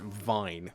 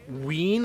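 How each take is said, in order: First: The name is said with a 'vine' sound. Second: The name is said with a 'ween' sound. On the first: The speaker calls it right. "my surname is Vine" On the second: The speaker calls it wrong. "they call it like Ween, and I'm just like, that's not my surname"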